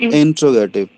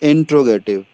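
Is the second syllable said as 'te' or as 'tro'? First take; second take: tro; tro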